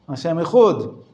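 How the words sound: It is spoken with an Ashkenazi Hebrew pronunciation. "they teach them to pronounce the way their fathers and their grandfathers pronounce"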